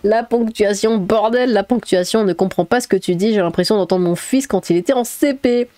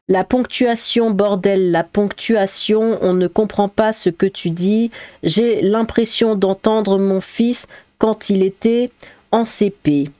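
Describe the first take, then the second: First: It is spoken naturally and expressively. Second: It is read in a flat schoolchild style.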